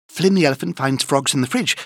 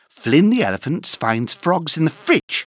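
First: It is said at a very fast pace. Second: It is said at a fast pace.

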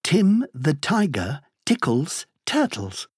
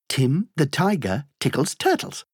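First: The phrase is said at a slow pace. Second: The phrase is said at a fast pace.

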